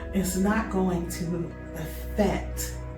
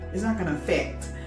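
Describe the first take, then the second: First: Each word is said clearly and separately. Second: The words are run together into one flow.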